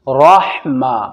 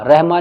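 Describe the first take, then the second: First: The r sound is heavy and thick. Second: The r sound is light and thin. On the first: The speaker calls it right. "रा को मोटा करके पढ़ना" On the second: The speaker calls it wrong. "बाद लोग इसे पढ़ते हैं रहमा, रहमा नहीं"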